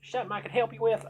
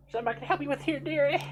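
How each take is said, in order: First: Put-on fast, much higher, louder, a rushed stab at a South Asian accent; quick South Asian accent attempt. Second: Put-on much higher and louder, a lightly done Southern old lady's accent; a folksy Southern shopkeeper's accent calling "dearie". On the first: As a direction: tries a South Asian accent, then gives up. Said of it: "speaking with a strong South Asian accent". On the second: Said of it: "everybody's just gonna have Southern accents".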